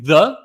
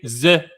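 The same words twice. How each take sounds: First: It is said with a plain English pronunciation. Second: It is said with a heavy French accent. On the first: "instead of saying the" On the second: "they're gonna say the"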